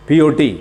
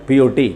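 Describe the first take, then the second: No difference in how they are said.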